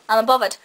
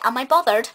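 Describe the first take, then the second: First: The words are run together and loosely articulated. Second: The words are articulated more clearly and carefully. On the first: "He doesn't go" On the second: "He does actually say, ... enunciate a bit more"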